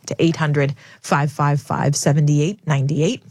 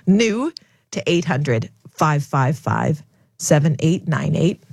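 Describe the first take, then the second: First: The number is said at a faster pace. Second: The number is said at a slower pace.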